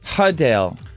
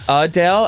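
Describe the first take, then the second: First: The name starts with an h sound. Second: The name starts with a vowel, no h. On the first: "H U H D A L E" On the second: "as in U H D A L E"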